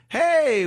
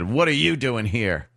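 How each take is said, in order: First: It sounds friendly and pleasant. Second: It sounds hostile and combative.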